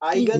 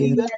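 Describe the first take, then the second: First: The word begins with an 'eye' sound. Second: The word begins with an 'ee' sound. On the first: "जो भी आप बोलना चाहें" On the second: "जो भी आप बोलना चाहें"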